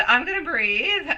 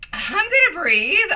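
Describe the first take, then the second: First: Steadier, settling the breath; calming down. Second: Breathless from laughing, trying to calm down; still laughing. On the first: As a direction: let it out calmer, regaining control. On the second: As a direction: say it still catching your breath. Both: Real, not acted.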